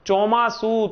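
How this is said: The word begins with a ch sound. This is the standard form. "આપણે કહીએ"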